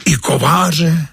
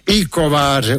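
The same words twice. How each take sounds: First: High, slow, disbelieving gasp of a question; a boy who can't believe his ears; drawn-out amazed question; astonished. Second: Gentle amused nod in the voice; smiling reply. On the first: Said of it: "žasne Josífek". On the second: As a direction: calmly assure the boy it's true. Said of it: "usmál se ten nenápadný pán". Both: Acted.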